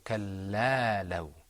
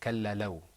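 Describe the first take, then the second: First: The vowel after the L is held longer. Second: The vowel after the L is held briefly. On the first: The speaker calls it right. "we're pronouncing it for a longer time" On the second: The speaker calls it wrong. "instead of"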